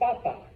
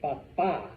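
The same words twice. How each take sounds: First: The stress is on the first syllable. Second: The stress is on the second syllable. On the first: It means potato. "That means potato" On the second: It means dad. "This means dad"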